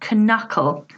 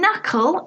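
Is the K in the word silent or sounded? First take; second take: sounded; silent. First: The K is pronounced in the word. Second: The K is not pronounced in the word. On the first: The speaker calls it wrong. "it's not knuckle" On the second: The speaker calls it right. "Silent Ks"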